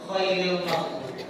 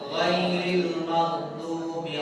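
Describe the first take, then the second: First: The first word begins with a voiceless kh sound. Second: The first word begins with a voiced gh sound. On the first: It changes the meaning to the best of those who earned anger. The speaker calls it wrong. "khairil maghdubi pakai kha" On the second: It means not of those who earned anger. The speaker calls it right. "Kalau ghairil pakai ghair"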